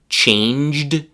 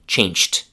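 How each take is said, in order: First: The word ends with a voiced d sound. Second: The word ends with a voiceless t sound. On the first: The speaker calls it right. "When they need to say" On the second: The speaker calls it wrong. "they instead say"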